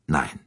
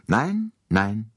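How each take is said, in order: First: „nein“ kurz und fallend, tiefer; kurzes, abschließend fallendes „nein“; abschließendes Nein. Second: „Nein, nein“ gedehnt, das erste Nein höher angesetzt; „Nein“ lang gezogen und hoch betont; nachdrückliches Nein. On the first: (Poirot schließt mit kurzem, fallendem „nein“ ab) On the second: (Poirot weist Bouc mit gedehntem, hohem „Nein, nein“ zurück) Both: A narrator's reading. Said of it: "erklärte Poirot sehr nachdrücklich".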